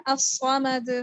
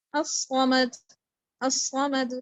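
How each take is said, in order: First: الصمد with a firm, bounced final د; strong qalqalah, right. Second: Slow الصمد letting the د fade weakly; weak qalqalah, wrong. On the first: Teacher showing the correct reading, firm bounced ending. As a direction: end الصمد on a crisp strong د. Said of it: "تھوڑا سا strong رکھنا ہے". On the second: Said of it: "اگر آپ اس کو ویک پڑھیں گے". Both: Shown as a demonstration.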